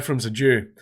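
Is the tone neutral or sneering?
neutral. It is said in a plain, matter-of-fact tone. It is a plain statement of fact. The speaker calls it right. "that's fine"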